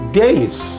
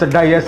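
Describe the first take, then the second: First: It is said as one syllable, like 'days'. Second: It is said as two syllables, 'dee-as'. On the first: The speaker calls it right. "It is days" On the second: The speaker calls it wrong. "If you say dias, dias, dias, there is no English word D I A S"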